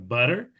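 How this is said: It is said in an American accent. "nos Estados Unidos seria butter"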